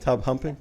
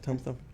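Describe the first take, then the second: First: The second word begins with an h sound. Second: The second word begins with a th sound. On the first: The speaker calls it wrong. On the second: The speaker calls it right.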